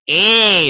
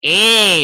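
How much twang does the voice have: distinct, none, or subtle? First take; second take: distinct; distinct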